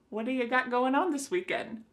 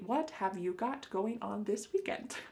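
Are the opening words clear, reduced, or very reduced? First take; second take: very reduced; clear. First: The opening words blur into one short sound. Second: Every word at the start is said clearly. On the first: "Do you think we can reduce this further?" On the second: "we don't say it that clearly"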